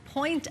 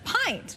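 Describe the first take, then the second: First: The vowel sounds like 'oy'. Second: The vowel sounds like 'eye'. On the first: The speaker calls it wrong. "point of beer instead of pint" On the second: The speaker calls it right. "instead of pint"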